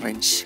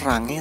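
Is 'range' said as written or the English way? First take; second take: English way; as written. First: It is said like English 'reynj'. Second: It is read as spelled, with Indonesian sounds. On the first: "tapi dibacanya range" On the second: "Tulisannya range"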